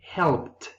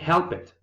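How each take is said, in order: First: The ending is a short 't' sound. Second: The ending is an extra syllable, like 'id'. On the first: The speaker calls it right. "we say helped" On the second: The speaker calls it wrong. "we don't say help it"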